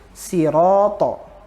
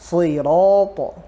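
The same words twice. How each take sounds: First: The consonant is pronounced light and thin. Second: The consonant is pronounced heavy and thick. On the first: The speaker calls it wrong. "Coba kalau kita bacanya tipis" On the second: The speaker calls it right. "Tapi kalau kita tebalkan"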